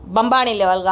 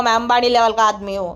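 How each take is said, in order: First: बम्बानी with a B stuck on the front, not अंबानी; joking twist on the name: बम्बानी; wordplay mispronunciation. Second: Said in the usual way. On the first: Shown as a demonstration. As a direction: say it as बम्बानी, a bouncy B. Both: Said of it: "अंबानी नहीं".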